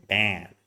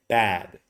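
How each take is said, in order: First: "bad" with a very nasal vowel; low-pitched, strongly nasal crying-baby "bad". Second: "bad" with only slight nasality in the vowel; relaxed open vowel in "bad", hardly nasal; reduced nasality. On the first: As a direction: exaggerate the nose sound in "bad". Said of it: "very nasal". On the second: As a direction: say "bad" open-mouthed, easing off the nose. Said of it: "you're gonna reduce it and say". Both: Shown as a demonstration.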